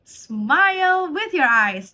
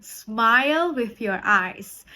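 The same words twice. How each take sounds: First: Much higher, louder, very slow "Smile with your eyes"; beaming coach. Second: Slow instruction. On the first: (pelatih ceria yang bersemangat) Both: Shown as a demonstration. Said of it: "facial expression".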